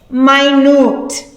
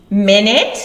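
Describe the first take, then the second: First: "minute" said my-NOOT, stress last; "minute" with a long i and a long u; minute as in tiny. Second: "Minute" said MIN-it, stress first; "Minute" short i, short ending; minute as in time. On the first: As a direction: say "minute" like very small. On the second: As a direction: say "Minute" like sixty seconds. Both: Shown as a demonstration. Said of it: "same spelling, but pronounced differently".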